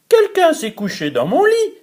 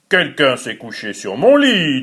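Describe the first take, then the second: First: It is said in a tiny voice. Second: It is said in a big, deep voice.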